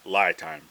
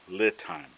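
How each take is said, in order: First: The first syllable sounds like 'lie'. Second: The first syllable sounds like 'lee'. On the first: The speaker calls it wrong. "not not lie time" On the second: The speaker calls it right. "Li-time is the pronunciation"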